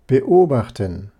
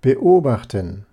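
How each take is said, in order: First: A glottal catch separates the prefix from the vowel. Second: The same.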